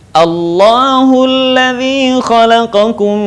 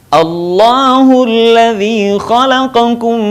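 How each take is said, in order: The two takes are said the same way.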